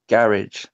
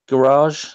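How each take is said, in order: First: It is said in a British accent. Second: It is said in an American accent. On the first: "We say garage" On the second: "You say garage"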